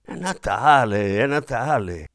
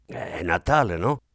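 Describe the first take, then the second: First: Exclaiming. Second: Said in the usual way. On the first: A narrator's reading. Gabriel hurrying away from the maid, hearty exclamation. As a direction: wave her off with a hearty cry. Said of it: "esclamò lui".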